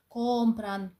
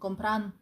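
First: The stress is on the first syllable. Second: The stress is on the last syllable. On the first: The speaker calls it right. "Є компран" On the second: The speaker calls it wrong. "От така типова помилка учнів"

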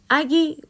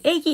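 First: The first vowel is the back vowel 'a'. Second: The first vowel is the front vowel 'ae'. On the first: The speaker calls it right. "아기 안 그러고" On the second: The speaker calls it wrong. "애기, 이러잖아"

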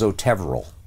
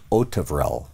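First: The stress falls on a later syllable. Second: The stress falls on the first syllable. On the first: This is what people assumed the name was. The speaker calls it wrong. "everybody thought it was Otevrel" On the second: This is how the man says his own name. The speaker calls it right. "The stress on the first syllable"

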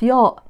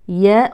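First: The first consonant is heavy, with a thick sound. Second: The first consonant is light, with a thin sound. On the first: The speaker calls it wrong. "وليست" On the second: The speaker calls it right. "والحرف المرقق اسمه مرقق"

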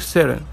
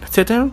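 First: The middle consonant is a quick r-like flap. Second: The middle consonant is a clear t sound. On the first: The speaker calls it right. "ان تي و تي عملوا حرف زي حرف الارت" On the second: The speaker calls it wrong. "سيتن نو"

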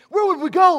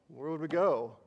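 First: It sounds inspired, loyal and devoted. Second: It sounds reluctant and resigned. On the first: They gladly choose to stay out of devotion. "Was it a moment of great inspiration and loyalty and devotion?" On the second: They stay only because they have no other option. "We're kind of stuck here"

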